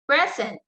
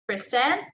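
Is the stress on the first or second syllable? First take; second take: first; second. First: The stress is on the first syllable. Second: The stress is on the second syllable. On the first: It is used as a noun. "In noun, the stress there is on the first syllable" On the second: It is used as a verb. "so the stress there is on the second syllable"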